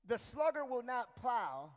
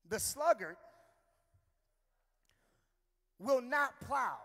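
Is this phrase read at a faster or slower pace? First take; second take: faster; slower. First: The phrase is read at a normal pace. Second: The phrase is read at a slower pace.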